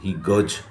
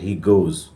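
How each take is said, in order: First: The vowel in goes sounds like uh. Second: The vowel in goes sounds like oh. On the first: The speaker calls it wrong. "गज बोलते हैं कोई कोई" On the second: The speaker calls it right. "No गज नहीं पढ़ेंगे"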